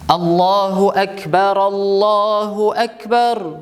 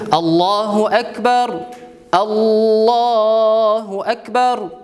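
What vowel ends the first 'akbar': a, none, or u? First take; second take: a; none. First: The phrases join, with 'a' ending the first. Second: Each phrase stops, with a pause between them. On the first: "Өченче вариант фатха белән" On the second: "То есть все отдельно говорить"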